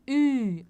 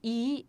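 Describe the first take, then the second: First: The vowel is said with rounded lips. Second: The vowel is said with spread lips. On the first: The speaker calls it right. "não tem como ele não sair se você fizer biquinho" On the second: The speaker calls it wrong. "somente I não vai funcionar"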